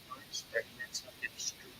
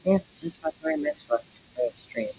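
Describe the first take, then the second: First: Soft unvoiced whisper, much quieter; whispered aside. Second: Said in the usual way. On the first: Real, not acted. Streamer murmurs the time left to chat, whispered. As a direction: breathe it to yourself as an afterthought.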